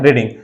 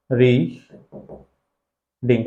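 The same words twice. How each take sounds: First: Said in the usual way. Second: रीडिंग very slowly, री, long pause, then डिंग; syllable-by-syllable demo. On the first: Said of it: "क्या है". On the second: Shown as a demonstration. Teacher showing students two vowel sounds, रीडिंग split slowly into syllables. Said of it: "जब इसको pronounce करेंगे ना".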